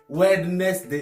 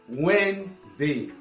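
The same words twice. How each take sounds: First: Every written letter, including d, is pronounced. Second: The d and middle letters are silent. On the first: The speaker calls it wrong. "On a tendance à prononcer tous les mots, à lire toutes les lettres qui sont dans le mot" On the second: The speaker calls it right. "on prononce juste Wednesday"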